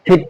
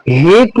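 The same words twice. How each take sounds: First: "hit" with a short i; correct short-vowel hit. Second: "hit" stretched into "heet"; wrong long-vowel heet. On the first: Teacher giving students the correct reading, short i in hit. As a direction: keep the i in hit short, voice dropping. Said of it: "पढ़ेंगे". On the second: Teacher showing students how not to read hit, long ee. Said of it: "नहीं पढ़ना है". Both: Shown as a demonstration.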